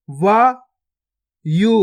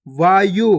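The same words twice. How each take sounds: First: गुफा drawn out very slowly, each sound held long; slow stretched reading. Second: Said in the usual way. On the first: Shown as a demonstration. Teacher showing pupils each sound, drawn out very slowly. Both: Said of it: "पहले तो आपको शब्द को गौर से सुनना है".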